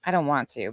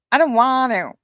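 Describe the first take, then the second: First: Said in the usual way. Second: High, loud, whining. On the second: Real, not acted. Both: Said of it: "I sound like a whiny baby tonight".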